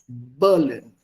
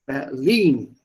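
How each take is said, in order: First: BERlin, stress on BER; English stress. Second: BerLIN, stress on LIN; German stress. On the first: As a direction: say Berlin the English way, first syllable. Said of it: "Berlin is English". (englische Betonung auf BER in Berlin) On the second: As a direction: say Berlin the German way, last syllable. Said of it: "is Deutsch". (deutsche Betonung auf LIN in Berlin) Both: Shown as a demonstration.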